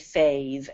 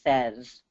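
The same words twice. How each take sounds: First: The vowel sounds like 'ay'. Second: The vowel sounds like 'eh'. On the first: The speaker calls it wrong. "we don't say says, at least not in this country" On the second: The speaker calls it right. "Notice the pronunciation of the A Y in says"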